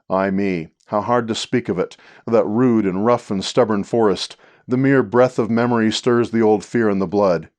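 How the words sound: It flows on where lines lack punctuation.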